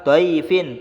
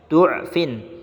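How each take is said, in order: First: The first vowel is an open 'a' sound. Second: The first vowel is a rounded 'u' sound. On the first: "boleh dengan harokat fathah seperti tertulis dalam mushaf" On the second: "boleh juga dengan harokat dhammah sehingga berbunyi du'fin"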